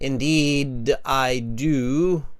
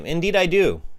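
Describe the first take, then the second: First: It is said slowly and haltingly. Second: It is said quickly and smoothly. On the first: The speaker calls it wrong. "If you're saying this really slowly" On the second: The speaker calls it right. "say it fluently"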